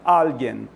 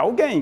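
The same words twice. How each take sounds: First: The stress is on the first syllable. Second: The stress is on the last syllable. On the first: This is the Spanish word. The speaker calls it right. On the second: This is the Portuguese word. The speaker calls it wrong. "não é alguém"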